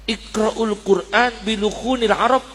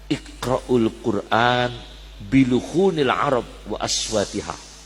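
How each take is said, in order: First: Said in the usual way. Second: Slow, measured Arabic quotation; slow hadith recitation. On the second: Acted. Preacher recites the Prophet's words to the congregation, slow and measured. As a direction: draw out each Arabic word like a recited text.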